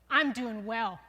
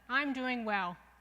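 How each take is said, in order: First: It is said loudly. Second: It is said softly.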